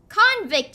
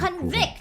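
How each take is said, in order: First: It is said as the noun form. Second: It is said as the verb form. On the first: It means a person found guilty. "would be the noun pronunciation" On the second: It means to find someone guilty. "would be the verb form"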